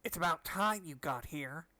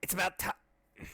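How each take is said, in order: First: Slow, lightly put-on scientist voice; drawn-out mock mad doctor; new voice attempt. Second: Slow, lightly put-on old scientist voice; new voice attempt. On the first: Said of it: "I'll do, do some new voices". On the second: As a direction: try out a voice for the doctor, slowly. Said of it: "I could do a better voice than that". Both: Shown as a demonstration.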